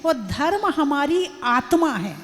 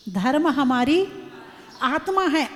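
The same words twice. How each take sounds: First: Said in the usual way. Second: धर्म हमारी आत्मा है split by pauses, हमारी rising before आत्मा; weighty restatement with a pause before आत्मा; slow emphatic repeat. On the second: Shown as a demonstration. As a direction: lay each word down with a pause after हमारी.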